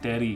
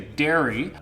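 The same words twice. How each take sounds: First: The R sounds tapped, close to a D. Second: The R is a plain, smooth R sound. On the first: "the R is more of a D sound" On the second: "So we would say dairy"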